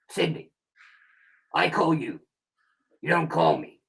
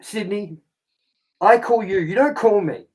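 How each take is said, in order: First: It is said in a put-on voice. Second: It is said in his ordinary voice.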